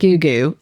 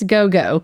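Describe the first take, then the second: First: The vowel sounds like 'oo' in both syllables. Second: The vowel sounds like 'oh' in both syllables. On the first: The speaker calls it wrong. "I pronounced it Goo Goo" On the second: The speaker calls it right. "no, it's Go Go"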